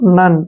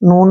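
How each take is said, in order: First: The vowel is a short uh sound. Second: The vowel is a long oo sound. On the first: The speaker calls it right. "उसको हम न पढ़ते हैं" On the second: The speaker calls it wrong. "नून नहीं पढ़ना है"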